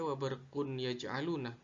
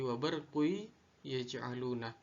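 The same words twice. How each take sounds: First: WA BARQUN YAJ'ALUNA with a clear separate n; wrong unmerged reading. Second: WA BARQU YAJ'ALUNA with n melted into y; merged idgham reading. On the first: Teacher showing what not to read, unmerged "wa barqun yaj'aluna". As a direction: sound the n of "barqun" plainly, unchanted. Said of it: "Tidak dibaca". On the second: Teacher correcting the reading, merged "wa barqu yaj'aluna". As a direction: run "barqu" into a doubled y of "yaj'aluna". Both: Shown as a demonstration.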